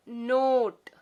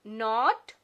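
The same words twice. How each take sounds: First: Note with long o, louder; long o word. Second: Not with short o; plain short o; short o word. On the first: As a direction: stretch the o to its name. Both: Shown as a demonstration. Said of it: "ओ का long sound".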